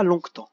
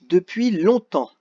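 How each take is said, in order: First: "longtemps" with a hard g/k sound before the t; wrongly sounded G. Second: Said in the usual way. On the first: Shown as a demonstration. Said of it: "mais on dit pas". (« longtemps » en prononçant le g muet) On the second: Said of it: "on dit pas longtemps".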